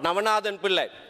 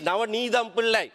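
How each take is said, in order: First: The first name is said as Navanathan. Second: The first name is said as Navanidham. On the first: The speaker calls it wrong. "not Navanathan Pillai" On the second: The speaker calls it right. "She is Navanidham Pillai"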